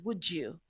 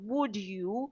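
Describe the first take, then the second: First: The words run together with a j sound. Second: The two words are said separately and clearly.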